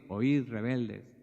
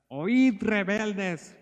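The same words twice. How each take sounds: First: It is said calmly, without anger. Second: It is said angrily, with force.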